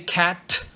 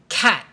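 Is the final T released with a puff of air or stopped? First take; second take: released; stopped. First: The final T is released with a puff of air. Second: The final T is stopped with no air released. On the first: The speaker calls it wrong. "Do you say cat? Don't do that" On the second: The speaker calls it right. "Say cat. And you stop really fast"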